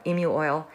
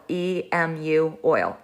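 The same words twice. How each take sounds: First: Said in the usual way. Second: E M U oil spelled slowly, letter by letter; E, M, U, each letter said separately. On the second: Shown as a demonstration. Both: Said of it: "is Emu oil".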